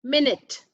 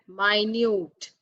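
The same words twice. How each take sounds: First: "minute" as MIN-it, stress on the first syllable; noun minute. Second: "minute," as my-NYOOT, slow, stress at the end; adjective minute. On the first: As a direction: say "minute" as MIN-it, short and falling. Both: Shown as a demonstration. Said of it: "look at the difference".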